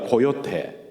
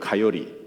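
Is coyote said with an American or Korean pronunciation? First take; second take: Korean; American. First: It is said with a Korean pronunciation. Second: It is said with an American pronunciation. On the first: "여기 한국에서는 고요대라고 하죠" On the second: "미국 발음으로 하면 카요리예요"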